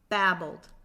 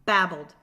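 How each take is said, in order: First: The word is said at a slow pace. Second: The word is said at a quicker pace.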